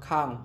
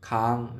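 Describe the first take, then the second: First: The syllable is said with a falling tone. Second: The syllable is said with a high tone. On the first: "เสียงโท" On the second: "เสียงดี"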